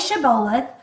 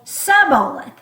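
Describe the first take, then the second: First: The word begins with an sh sound. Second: The word begins with a plain s sound. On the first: The speaker is from Gilead. The speaker calls it right. "they told them to say shibboleth" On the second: The speaker is from Ephraim. The speaker calls it wrong. "without the sh. So it wasn't S H, it was just S"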